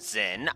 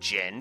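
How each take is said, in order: First: The name begins with a z sound. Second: The name begins with a j sound. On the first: The speaker calls it wrong. "I will not call him Zin" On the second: The speaker calls it right. "that is the correct pronunciation"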